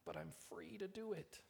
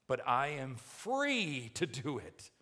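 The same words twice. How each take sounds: First: Soft, high-pitched little objection; feeble protest. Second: Loud, insistent objection, FREE stretched high; defiant protest. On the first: Preacher mimics believer pleading liberty, soft high protest. Same objection, repeated small. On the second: Preacher voices believer clinging to liberty, defiant protest. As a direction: protest it slowly and forcefully. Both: Acted.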